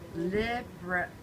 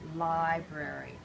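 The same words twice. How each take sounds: First: The first syllable has a short 'i' sound. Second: The first syllable has a long 'i' sound. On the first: The speaker calls it wrong. "say you said li, you would say library" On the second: The speaker calls it right. "I said li or lie, right? So let me try library"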